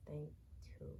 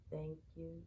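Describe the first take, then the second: No difference in how they are said.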